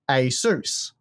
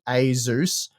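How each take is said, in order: First: The second syllable begins with an s sound. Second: The second syllable begins with a z sound. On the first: The speaker calls it right. "it was a Seuss" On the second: The speaker calls it wrong. "it wasn't a Zeus"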